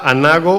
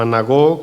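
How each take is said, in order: First: "anago" with the stress on NA. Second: "anagó" with the stress on the last syllable; stress on final O. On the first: Preacher teaching the Greek word, "anago" stressed on NA. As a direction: lean on the middle A of "anago". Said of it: "aparecía con acento en la A". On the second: Preacher giving the alternative Greek reading, "anagó" stressed at the end. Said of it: "otro con acento en la O". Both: Shown as a demonstration.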